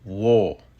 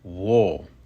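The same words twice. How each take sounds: No difference in how they are said.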